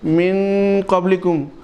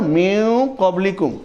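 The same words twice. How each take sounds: First: The n sound is pronounced clearly and fully. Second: The n sound is hidden and light. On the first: The speaker calls it wrong. "वो इख्फा नहीं कर रहे हैं बल्कि नून का इजहार भी कर रहे हैं" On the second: The speaker calls it right. "तो यही सही है, ये इख्फा है।"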